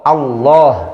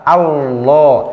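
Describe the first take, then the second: The two takes are said the same way.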